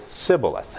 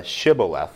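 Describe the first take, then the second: First: "Sibboleth" with an initial S, no H sound. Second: "Shibboleth" with an initial SH; SH pronunciation. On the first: Teacher shows how Ephraimites say it, "Sibboleth" with S. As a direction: swap SH for S in "Sibboleth". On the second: Teacher gives the word they must pronounce, "Shibboleth" with SH. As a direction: start "Shibboleth" on a hushed SH. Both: Shown as a demonstration. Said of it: "can't pronounce the S H".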